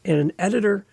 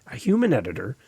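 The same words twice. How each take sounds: First: Said in the usual way. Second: "human" lower and set apart; stress on human. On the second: Shown as a demonstration. Correcting himself, he stresses "human". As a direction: lean into "human", drop the pitch.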